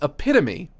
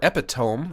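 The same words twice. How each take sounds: First: Four syllables, the ending sounds like 'tuh-mee'. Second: Three syllables, the ending rhymes with 'home'. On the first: The speaker calls it right. "It's epitome" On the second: The speaker calls it wrong. "if you don't know how to pronounce words"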